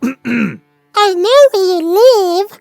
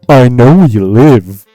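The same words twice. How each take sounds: First: It is said in an Elmo voice. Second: It is said in his normal voice.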